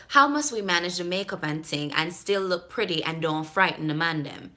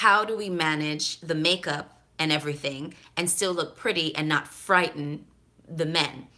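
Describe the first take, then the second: First: Jamaican patois question; Jamaican accent. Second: Said in the usual way. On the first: Acted. Vlogger reading the emailer's makeup question, Jamaican accent. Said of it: "trying to deliver it in the way that she wrote it".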